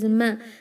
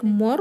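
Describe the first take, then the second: First: The m syllable is light and clear. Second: The m syllable is heavy and darkened. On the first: The speaker calls it right. "It is ma" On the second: The speaker calls it wrong. "don't make this meme heavy like more"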